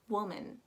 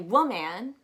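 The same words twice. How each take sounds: First: The second syllable has a weak, reduced vowel. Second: The second syllable has a full vowel, like man. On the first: The speaker calls it right. "So you pronounce it as woman" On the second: The speaker calls it wrong. "Before you say woman, which I hear often"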